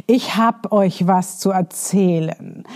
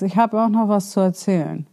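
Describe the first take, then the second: First: Slow, weighty "Ich hab euch was zu erzählen", building suspense; inviting announcement. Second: Said in the usual way. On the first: Shown as a demonstration. Coach demos a captivating opener, slow and weighty. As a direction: draw the listener in slowly. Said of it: "wenn du sagst". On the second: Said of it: "als wenn du sagst".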